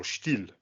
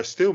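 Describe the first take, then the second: First: Stihl said German-style, opening with a sh sound; German-style pronunciation. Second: Said in the usual way. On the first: Shown as a demonstration. Offering the brand's other name, Stihl said German-style with sh. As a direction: say "Stihl" as "Shteel". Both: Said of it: "or Stihl".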